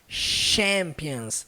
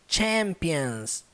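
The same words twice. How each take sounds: First: The word begins with a soft sh sound. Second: The word begins with a forceful ch sound. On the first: The speaker calls it wrong. "Ela não leva o som do C H igual no português" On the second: The speaker calls it right. "sempre com força"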